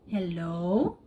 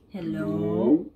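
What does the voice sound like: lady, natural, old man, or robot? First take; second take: natural; old man. First: The voice sounds natural and unaltered. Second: The voice is altered to sound like an old man. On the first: "This is my actual voice" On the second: "So I think this is a old man voice"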